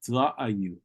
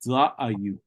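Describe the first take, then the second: The two takes are said the same way.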